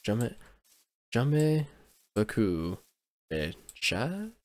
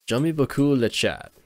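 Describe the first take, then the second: First: "J'aime... j'aime... beaucoup... le chat?" word by word, rising on "chat"; halting French attempt. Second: "J'aime beaucoup le chat" run together, higher, falling at the end; attempted French pronunciation. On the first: Unsure how French is pronounced, testing "J'aime beaucoup le chat" word by word. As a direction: sound out "J'aime beaucoup le chat" piece by piece, questioning at the end. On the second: Trying out French on stream, "J'aime beaucoup le chat" in one connected attempt. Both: Shown as a demonstration. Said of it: "trying to pronounce it".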